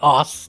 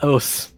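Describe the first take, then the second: First: The vowel sounds like 'uh', as in us. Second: The vowel sounds like 'oh', as in oh. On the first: The speaker calls it wrong. "It's not fucking us" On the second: The speaker calls it right. "It's os"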